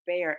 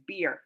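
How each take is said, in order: First: "bear" with an open eh vowel, like the animal; wrong vowel take. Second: "beer" with a long ee vowel; corrected vowel. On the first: Streamer checks whether she misread a name to chat, open vowel. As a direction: say "bear" rhyming with air. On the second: Streamer corrects her reading for chat, long ee vowel. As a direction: stretch the ee in "beer". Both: Shown as a demonstration. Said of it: "did it sound like I said bear".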